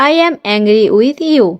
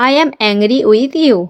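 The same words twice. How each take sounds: The two takes are said the same way.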